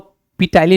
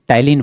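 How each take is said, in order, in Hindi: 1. शब्द की शुरुआत में साफ़ P की आवाज़ सुनाई देती है। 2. शब्द सीधे T की आवाज़ से शुरू होता है। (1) "इसको पी टाइलिन नहीं बना है" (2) "पी साइलेंट है, इसको टाइलिन पढ़ा जाता है"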